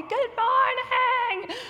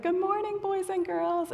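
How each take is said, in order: First: Very high, slow, stretched-out yell; kids' yell back. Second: High, drawn-out singsong hello; children's greeting. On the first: Retold or imitated. Little kids yelling back at their leader, high drawn-out mock yell. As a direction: imitate little kids hollering a greeting. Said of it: "they yell back at me". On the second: Acted. Ministry leader opening time with two to four-year-olds, high singsong. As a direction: greet little kids in a high voice. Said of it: "I always start with".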